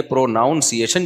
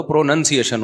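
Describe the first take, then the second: First: پروناؤنسیشن keeping the "noun" sound; wrong pronunciation. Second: پروننسیشن with a short "nun"; correct pronunciation. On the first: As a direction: say پروناؤنسیشن as "pro-noun-see-ay-shun". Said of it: "ناؤن نہیں". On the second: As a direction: say پروننسیشن as "pro-nun-see-ay-shun". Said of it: "تو پروننسیشن ہوتا ہے". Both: Shown as a demonstration.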